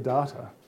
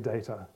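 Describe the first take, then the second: First: The word is said the Australian way. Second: The word is said the American-English way. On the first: The speaker calls it right. "Australians say data" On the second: The speaker calls it wrong. "The English and the Americans say data. I'm disappointed in you"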